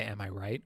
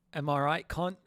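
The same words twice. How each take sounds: First: Said in the usual way. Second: Higher-pitched mock British tag question; attempted British accent. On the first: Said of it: "No, they don't say". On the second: Streamer guessing British slang for the viewers, mock British accent. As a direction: toss it out in a put-on British accent. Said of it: "what do British people say".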